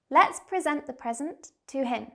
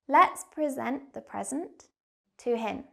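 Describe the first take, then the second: First: The sentence is spoken at a quick pace. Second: The sentence is spoken at a slower pace. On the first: "I'll say the sentence quickly" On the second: "second time, but slower"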